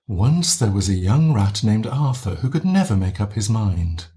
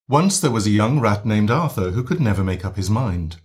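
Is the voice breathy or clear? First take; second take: breathy; clear. First: The voice is light and breathy. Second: The voice is clear and strong.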